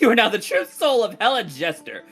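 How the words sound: It is read in a put-on character voice.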